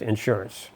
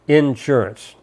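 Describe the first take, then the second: First: The first syllable does not carry the stress. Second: The first syllable carries the stress. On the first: This is how Western New York speakers say it. "Up in New York, it's just insurance" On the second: This is how southern Indiana speakers say it. "with the accent on the in"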